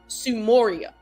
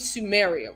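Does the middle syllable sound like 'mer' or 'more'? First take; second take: more; mer. First: The middle syllable sounds like 'more'. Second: The middle syllable sounds like 'mer'. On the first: This is the original form of the name. "how it's originally enunciated" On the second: This is the usual modern name. "the name Sumeria"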